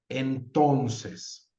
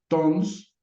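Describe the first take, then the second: First: The word is said fully with three syllables. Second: The word is shortened to a single syllable. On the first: This is the ideal form in the system. "fonológicamente está compuesta por tres sílabas" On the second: This is a form used in everyday speech. "en el habla constantemente podemos decir tons"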